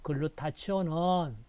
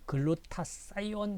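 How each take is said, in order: First: The third syllable is said as 'chi'. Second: The third syllable is said as 'sai'.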